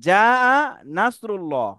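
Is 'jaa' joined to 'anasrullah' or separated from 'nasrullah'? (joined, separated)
separated. 'Jaa-a' ends before a separate 'nasrullah'. It means help from Allah has come. The speaker calls it right. "এখানে যা আ নাসরুল্লাহ"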